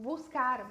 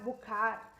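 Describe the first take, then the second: First: The s sound in the middle is pronounced. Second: The s sound in the middle is dropped.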